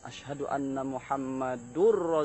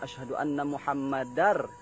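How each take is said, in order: First: Muhammad is followed by a 'u' vowel. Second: Muhammad is followed by an 'a' vowel. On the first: The speaker calls it wrong. "Ada yang salah dalam baris" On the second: The speaker calls it right. "Sepatutnya ... fathatain bukan dhammatain"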